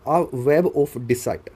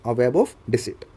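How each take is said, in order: First: Slow phrase with "deceit" said as dee-site; mistaken pronunciation. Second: "deceit" said as dee-seet, with an ee vowel; actual pronunciation. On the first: Teacher giving an example sentence, "deceit" mispronounced as dee-site. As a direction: make "deceit" rhyme with site. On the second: Teacher repeating the example corrected, "deceit" said as dee-seet. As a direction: make "deceit" rhyme with seat. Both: Shown as a demonstration. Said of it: "डिसीट actual में pronunciation होता है".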